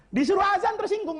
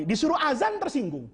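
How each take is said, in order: First: Said much higher, pushed with indignation; indignant emphasis. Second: Said in the usual way. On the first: Shown as a demonstration. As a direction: hit it high to show offended pride.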